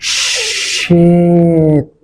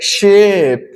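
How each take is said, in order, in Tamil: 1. வார்த்தை மெதுவாக சொல்லப்படுகிறது, ஒலிகள் இழுத்துச் சொல்லப்படுகின்றன. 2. வார்த்தை இயல்பான வேகத்தில் சொல்லப்படுகிறது.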